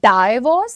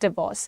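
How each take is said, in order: First: The first syllable is said like 'die'. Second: The first syllable is said like 'dih'. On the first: The speaker calls it wrong. "Not डाइवोर्स" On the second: The speaker calls it right. "It is डिवोर्स"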